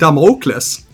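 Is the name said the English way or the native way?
native. The name is said the native-language way. "In my own language, ... I pronounce it Damocles"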